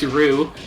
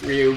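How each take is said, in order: First: It is said as one short syllable, 'roo'. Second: It is said with 'ry' gliding into 'oo'. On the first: "or if you're Seth Killian, it's Rue" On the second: "it's Ryu"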